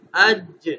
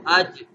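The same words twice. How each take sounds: First: اج with the ج jolted and rebounding, louder; اج said with a shaken, bouncing ج; qalqalah bounce. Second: Said in the usual way. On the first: Shown as a demonstration. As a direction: pop the ج of اج so it echoes. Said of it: "لیکن کلکلہ کرنا ہے تو". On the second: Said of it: "اگر کلکلہ کے بغیر پڑھیں تو".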